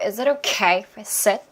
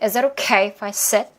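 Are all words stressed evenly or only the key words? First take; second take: key words; key words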